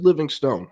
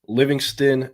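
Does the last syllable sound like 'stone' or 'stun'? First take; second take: stone; stun. First: The last syllable sounds like 'stone'. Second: The last syllable sounds like 'stun'. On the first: The speaker calls it wrong. "I said Livingstone, how it's pronounced" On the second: The speaker calls it right. "just say it like the E isn't there"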